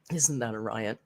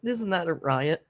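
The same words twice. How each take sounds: First: Quieter, lower repeat. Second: Said in the usual way. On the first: Shown as a demonstration. Host repeating the line to herself, softer and lower. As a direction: lower and softer echo of "Isn't that a riot?".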